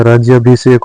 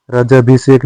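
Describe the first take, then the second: First: राज्याभिषेक with y after j; correct form. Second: राजाभिषेक without a y; wrong form. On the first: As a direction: sound ज्या in राज्याभिषेक. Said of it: "होता है". (राज्याभिषेक में ज्या) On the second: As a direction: say राजाभिषेक with plain जा. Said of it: "नहीं होता है". (राजाभिषेक में य नहीं) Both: Shown as a demonstration.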